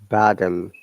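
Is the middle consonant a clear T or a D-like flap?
D-like flap. The middle consonant is a soft D-like flap. "American English will be bottom. You know why T sounds like D here?"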